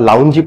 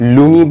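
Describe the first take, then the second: First: Said 'lown-jee', with an added 'ee' ending. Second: Said 'loon-gee', with an added 'ee' ending. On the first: "লুঙ্গি বা লাউঞ্জি পড়ছেন না তো?" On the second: "লুঙ্গি বা লাউঞ্জি পড়ছেন না তো?"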